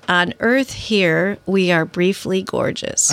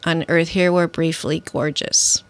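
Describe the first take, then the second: First: It is said slowly. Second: It is said at normal speed.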